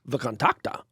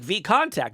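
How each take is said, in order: First: It is pronounced as Russian speakers say it. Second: It is pronounced as an English reader would. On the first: "Russians are pronouncing it VKontakte" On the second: "if you're an English speaker, it looks like VKontakte"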